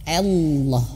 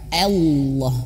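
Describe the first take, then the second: No difference in how they are said.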